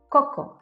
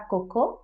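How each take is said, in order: First: The stress is on the first syllable. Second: The stress is on the last syllable. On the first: The speaker calls it right. "mais coco" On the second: The speaker calls it wrong. "on ne met pas l'accent sur la dernière syllabe"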